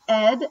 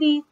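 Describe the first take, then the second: First: The ending is a full syllable, 'id'. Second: The ending is a voiceless 't' sound. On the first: "You can say ed, ed, as in founded" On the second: "and you can say ed, t, as in jumped"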